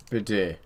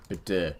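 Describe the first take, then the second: No difference in how they are said.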